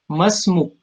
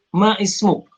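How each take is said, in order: First: The two words are run together as one. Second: The two words are kept apart as two. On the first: The speaker calls it right. "A-nya langsung bersambung dengan ma" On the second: The speaker calls it wrong. "tidak dipisahkan huruf ma"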